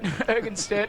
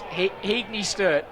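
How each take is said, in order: First: The name sounds like Hergenstert. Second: The name sounds like Heagney Sturt. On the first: The speaker calls it wrong. "No, it can't be that" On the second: The speaker calls it right. "It's Heagney Sturt"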